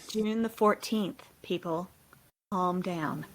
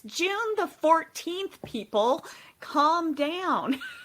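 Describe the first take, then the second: First: It is said in a robotic voice. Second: It is said in an American accent. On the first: "Do you want the robot voice?" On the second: "I love it in that American accent"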